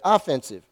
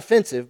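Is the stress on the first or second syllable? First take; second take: first; second. First: The stress is on the first syllable. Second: The stress is on the second syllable. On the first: It is meant for attacking. The speaker calls it right. "but offensive" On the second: It is insulting. The speaker calls it wrong. "not offensive"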